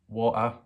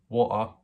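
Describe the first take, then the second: Both takes have the same delivery.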